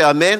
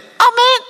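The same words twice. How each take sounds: First: It is said in the speaker's natural voice. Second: It is said in a put-on parrot voice. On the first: The person praying says it. "I'd say amen" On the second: A parrot copies it without understanding. "Would be the parrot"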